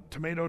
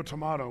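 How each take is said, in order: First: "tomato" with middle syllable like "may"; long A in tomato. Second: "tomato" with middle syllable like "mah"; broad A in tomato. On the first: Preacher voicing an objector's shrug, "tomato" said tuh-MAY-toh. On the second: Preacher voicing an objector's shrug, "tomato" said tuh-MAH-toh. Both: Shown as a demonstration. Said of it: "what's the difference".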